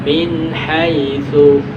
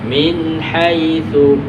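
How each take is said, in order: No difference in how they are said.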